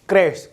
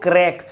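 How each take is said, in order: First: The word ends with an sh sound. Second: The word ends with a k sound. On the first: "तो एक क्रैश pronounce होता है" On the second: "कुछ लोग क्रैक"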